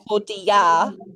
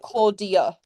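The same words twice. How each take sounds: First: An unstressed vowel is pronounced fully, as spelled. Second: An unstressed vowel is reduced to a schwa. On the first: The speaker calls it wrong. "it should be Claudia" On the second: The speaker calls it right. "but it's like Claudia. That's how we say it"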